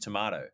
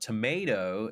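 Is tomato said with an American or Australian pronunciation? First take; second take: Australian; American. First: The word has an Australian pronunciation. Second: The word has an American pronunciation. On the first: This is the speaker's own usual way of saying it. "for me, it's always tomato" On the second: This is how others say it, not the speaker. "It's not tomato"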